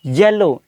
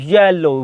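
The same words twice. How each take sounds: First: येलो said slowly as the teacher's correct form; slow, careful येलो as the right version; corrected yellow. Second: येलो said with a plain English y at the start; येलो as most learners say it; wrong y-sound yellow. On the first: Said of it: "नहीं, येलो". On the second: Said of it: "हम क्या पढ़ते हैं, वाई sound". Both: Shown as a demonstration.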